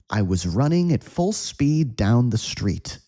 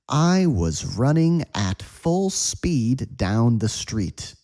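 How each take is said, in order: First: The sentence is spoken at a quick pace. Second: The sentence is spoken at a medium pace. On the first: "And now at a quick speed" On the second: "One more time at a medium speed"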